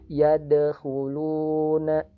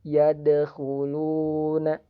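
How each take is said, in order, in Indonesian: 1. Bunyi d dipantulkan ringan dan mengalir. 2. Bunyi d dipantulkan ringan dan mengalir.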